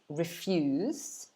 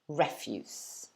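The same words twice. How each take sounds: First: The stress is on the second syllable. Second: The stress is on the first syllable. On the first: It means to say no to something. "The verb is refuse" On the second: It means rubbish or waste. "the noun refuse"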